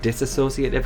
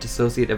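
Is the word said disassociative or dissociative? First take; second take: disassociative; dissociative. First: It is said with an extra syllable. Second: It is said without an extra syllable. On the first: The speaker calls it wrong. "she keeps calling it ... just a little like extra syllable there" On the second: The speaker calls it right. "getting the name of dissociative identity disorder right"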